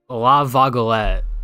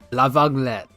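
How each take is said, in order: First: The French name is pronounced clumsily. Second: The French name is pronounced closer to native. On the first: The speaker calls it wrong. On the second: The speaker calls it right.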